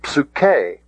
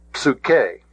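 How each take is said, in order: First: Psuche as psoo-KAY, final syllable stressed; corrected accent. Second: Psuche as PSOO-kay, first syllable stressed; accent on wrong syllable. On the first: Shown as a demonstration. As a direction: put the accent on the end of Psuche. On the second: Real, not acted. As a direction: misplace the accent onto the start of psuche. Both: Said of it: "getting the accent on the wrong syllable".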